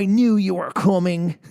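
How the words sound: It is spoken in a cowboy-like accent. "That sounds like a cowboy"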